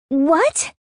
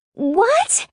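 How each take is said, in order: First: High, rising shriek of disbelief. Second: Very high, piercing rise of shock; louder shriek. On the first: Sister hearing about the boyfriend, shrieking. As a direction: shriek it in shock, pitch shooting up. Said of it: "she shrieks". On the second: Sister hearing he owns the club, louder shriek. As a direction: let the shriek soar right up. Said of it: "she shrieks louder this time". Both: A narrator's reading.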